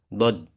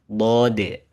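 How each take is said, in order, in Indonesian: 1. Vokalnya dipendekkan. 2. Vokalnya dipanjangkan. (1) "nggak langsung dod" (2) "Panjangin dulu. Agak manjang dikit"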